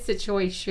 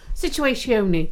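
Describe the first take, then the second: First: The word is said in a plain accent. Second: The word is said in an Italian-sounding accent.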